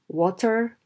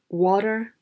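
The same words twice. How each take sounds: First: The middle T is a clear, full T. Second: The middle T is flapped, like a quick D. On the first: The speaker calls it right. "They should say water" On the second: The speaker calls it wrong. "teach your students not to say water"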